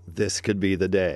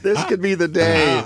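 First: It is said in a normal voice. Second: It is said in a put-on radio announcer voice.

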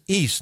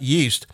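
First: The word starts with a vowel, no 'y' sound. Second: The word starts with a clear 'y' sound. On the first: This is how an Italian-accented speaker says it. The speaker calls it wrong. "I always thought it was pronounced east" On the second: This is the standard pronunciation. The speaker calls it right. "not yeast"

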